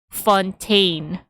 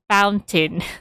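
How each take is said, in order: First: It ends in a French-style 'tenn' sound. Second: It sounds like the English word fountain. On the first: The speaker calls it right. "it's supposed to be read to be read as" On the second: The speaker calls it wrong. "I keep on uh, pronouncing it as Saint Fountain"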